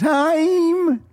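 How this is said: It is said in a comic put-on voice. "I always want to say it like Jerry Lewis"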